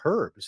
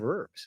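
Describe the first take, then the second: First: It is said with a British accent. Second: It is said with an American accent. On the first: "They also call them herbs" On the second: "instead of herbs"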